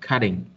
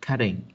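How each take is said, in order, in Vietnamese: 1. Phụ âm ở giữa là âm giống D, nhẹ. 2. Phụ âm ở giữa là âm giống D, nhẹ.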